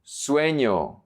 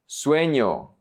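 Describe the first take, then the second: No difference in how they are said.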